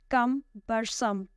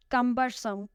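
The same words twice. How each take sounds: First: "Cumbersome" very slowly split: CUM-ber-some; stress on first syllable. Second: Said in the usual way. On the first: Shown as a demonstration. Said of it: "the stress is on the first one". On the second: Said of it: "The next word is cumbersome".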